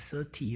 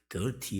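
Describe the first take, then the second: First: The word begins with a soft th sound. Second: The word begins with a hard d sound. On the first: The speaker is thirty years old. The speaker calls it right. "그래야 되는데" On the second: The speaker is dirty and old. The speaker calls it wrong. "이렇게 하면 안 돼"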